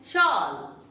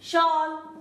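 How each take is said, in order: Both takes have the same delivery.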